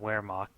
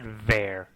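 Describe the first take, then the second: First: The word begins with a W sound. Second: The word begins with a V sound. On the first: The speaker calls it wrong. "not Wehrmacht" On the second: The speaker calls it right. "I actually said Wehrmacht"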